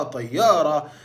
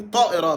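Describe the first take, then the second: First: طيارة said "tayyara" with a doubled y; Egyptian y for hamza. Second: طائرة said "ta'ira" with a glottal break; standard Arabic hamza. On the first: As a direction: glide through طيارة on y, no hamza. (طيارة بالمصري، ياء بدل الهمزة) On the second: (طائرة بالفصحى، بالهمزة) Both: Shown as a demonstration. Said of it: "احنا غيرنا الهمزة على نبرة ليا".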